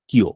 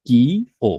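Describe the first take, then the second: First: কিও blended into one word; joined pronunciation. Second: কি, pause, then ও; split into parts. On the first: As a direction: run কি and ও together as কিও. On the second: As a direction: say কি and ও as separate pieces. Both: Shown as a demonstration. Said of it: "তখন এটা হবে".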